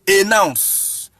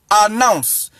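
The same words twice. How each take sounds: First: "ay-nounce" for announce; wrong pronunciation. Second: "ah-nounce" for announce; preferred pronunciation. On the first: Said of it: "you don't pronounce the". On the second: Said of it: "They pronounce it announce". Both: Shown as a demonstration.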